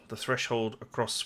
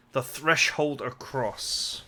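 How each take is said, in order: First: Said in the usual way. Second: Drawn out, word by word; slow, deliberate repeat of the phrase; puzzled slow re-read. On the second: Shown as a demonstration. Player querying odd wording in the game text, slow and deliberate. Rereads an oddly worded line.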